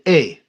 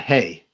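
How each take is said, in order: First: The word starts with a vowel, no h. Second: The word starts with an h sound. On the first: This is how Ladino speakers said it. "they also did not pronounce the fifth letter of the alphabet at all" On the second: This is the usual way it is said. "not Hey"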